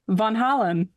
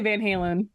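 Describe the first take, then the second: First: It is said the original Dutch way. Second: It is said with a Midwestern American accent. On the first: This is the proper original pronunciation. "I think I know what the actual pronunciation is" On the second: This is how the speaker habitually says it. "but I say Van Halen... that's just the Midwestern in me"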